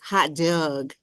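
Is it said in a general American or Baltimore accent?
Baltimore. It is said with a Baltimore dialect vowel.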